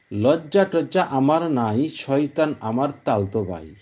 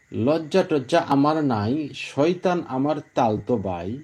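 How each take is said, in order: No difference in how they are said.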